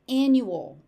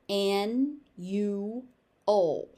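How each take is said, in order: First: It is said at a natural, connected pace. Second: Each syllable is exaggerated and separated. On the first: "I pronounce the word normally" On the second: "overpronounce it"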